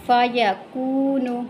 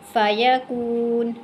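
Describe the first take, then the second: First: The word ends with a short u vowel. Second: The word ends on the bare consonant n.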